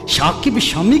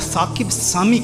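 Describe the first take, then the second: First: Both names begin with a sh sound. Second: Both names begin with an s sound.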